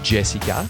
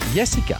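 First: The name starts with a J sound. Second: The name starts with a Y sound. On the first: "They don't say Jessica" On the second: "they say Jessica"

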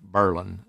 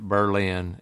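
First: Berlin is said the way locals say it. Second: Berlin is said the usual, non-local way. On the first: The speaker calls it right. "is the way the locals pronounce it" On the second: The speaker calls it wrong. "I called it Berlin, and I got in trouble"

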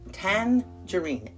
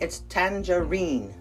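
First: The stress is on the first syllable. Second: The stress is on the last syllable. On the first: This is the United States pronunciation. "Emphasis on the first tan" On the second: This is the UK pronunciation. "So in the UK, the emphasis is on the final syllable, the reen"

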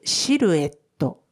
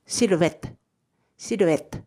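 First: It is said with Japanese katakana sounds. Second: It is said with French sounds.

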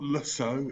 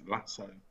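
First: The name is given a French-sounding pronunciation. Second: The name is given a plain English pronunciation. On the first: The speaker calls it wrong. "It's not Lasso. He's not some French skeezer" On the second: The speaker calls it right. "It's Lasso"

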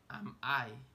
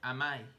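First: The two words are said separately. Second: The two words are linked together smoothly. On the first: "yo dije am I" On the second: "pero luego lo pronuncié junto. Dije am I"

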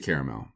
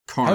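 First: The first syllable sounds like 'care'. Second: The first syllable sounds like 'car'. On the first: "But I say caramel. Ride or die on caramel" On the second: "It's like with a K almost. It's supposed to sound caramel"

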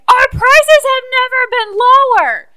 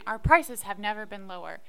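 First: It is yelled very loudly. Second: It is said at a normal volume.

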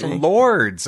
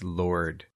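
First: The name ends with an s sound. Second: The name ends without an s sound. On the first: The speaker calls it wrong. "I've been pronouncing it Lords all my life" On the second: The speaker calls it right. "It's Lord"

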